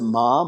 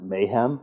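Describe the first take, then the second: First: The acronym is said as one syllable, 'mom'. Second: The acronym is said as two syllables, 'mayhem'. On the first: This is how most people say it. "many people pronounce it MOM" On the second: This is a joking personal version. "I tend to pronounce it Mayhem"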